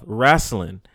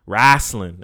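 First: Said in the usual way. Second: Wrestling said as wrasslin, louder and drawn out; Wrestling with a country twang, wrasslin; Wrestling punched out as wrasslin; wrasslin pronunciation. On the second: Shown as a demonstration. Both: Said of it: "as I like to call it".

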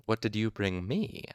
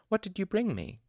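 First: Gentle teasing. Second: Put-on bright, eager and high-pitched, like a child; excited. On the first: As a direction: tease her lightly and kindly. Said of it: "I teased gently". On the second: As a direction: ask eagerly for a gift. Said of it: "she asked excitedly". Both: A narrator's reading.

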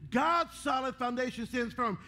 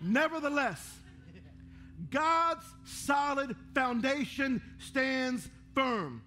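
First: Said in the usual way. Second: Each word of the verse drawn out slowly; slow solemn reading. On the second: Shown as a demonstration. Reading the verse on the screen to the church, slow and solemn. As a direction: lay the verse down like stones, very slow. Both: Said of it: "Isn't that ironic?".

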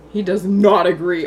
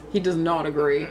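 First: "not" leaned on, slower and louder; slow down and punch "not"; stress on not. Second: Said in the usual way. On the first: Shown as a demonstration.

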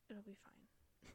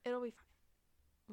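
First: Slow unvoiced whisper. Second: Slow, loud, stretched reassurance; drawn out. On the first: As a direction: hush it out slowly. Reassures, repeats the line. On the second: Pretend. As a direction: stretch every word out. Repeats louder, drawn out.

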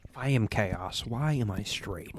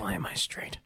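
First: Breathy whisper. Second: Soft unvoiced echo; whisper. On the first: Pretend. Whispered joke line. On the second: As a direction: breathe it out quietly.

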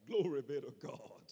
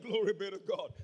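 First: Said in the usual way. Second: Louder repeat. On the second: Real, not acted. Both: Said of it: "I said".

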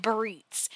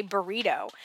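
First: "burritos" cut down to "burreets"; shortened half word. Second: Said in the usual way. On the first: Retold or imitated. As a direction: say "burritos" as "burreets", dropping the final o. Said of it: "that he said burritos". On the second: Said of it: "did not just say burrito".

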